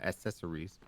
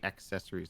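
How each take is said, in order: First: The word begins without the k sound. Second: The word begins with a clear 'ack' sound. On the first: The speaker calls it wrong. "not accessories" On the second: The speaker calls it right. "that's how you're supposed to say accessories"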